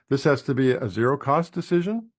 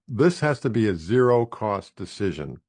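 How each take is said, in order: First: The voice rises at the end. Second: The voice falls at the end.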